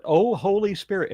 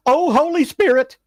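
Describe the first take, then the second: First: Mild mock scream. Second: High, loud panicked shriek; screaming girls. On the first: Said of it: "and run away screaming". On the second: Retold or imitated. Girls fleeing a snake, shrieking high and loud. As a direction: shriek it, full fright. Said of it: "go running across the street going".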